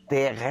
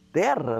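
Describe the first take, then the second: First: The word has the townspeople's r sound. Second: The word has the countryside r sound. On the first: This is how the people in town said it. The speaker calls it wrong. "todo mundo falava assim na terra como no céu... será que todo mundo falando errado aqui" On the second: This is how the speaker said it growing up. The speaker calls it right. "Eu falava terra"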